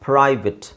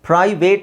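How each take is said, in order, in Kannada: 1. ಕೊನೆಯ ಉಚ್ಚಾರಾಂಶ 'it' ಥರ ಇದೆ. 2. ಕೊನೆಯ ಉಚ್ಚಾರಾಂಶ 'ate' ಥರ ಇದೆ. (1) "ಇಟ್ಸ್" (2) "ಪ್ರೈವೇಟ್ ಅಂತ ಹೇಳ್ತೀವಿ ನಾವು"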